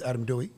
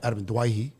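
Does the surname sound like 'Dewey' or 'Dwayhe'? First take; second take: Dewey; Dwayhe. First: The surname is said like 'Dewey'. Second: The surname is said like 'Dwayhe'. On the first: This is the common anglicised form. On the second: This is the original family form.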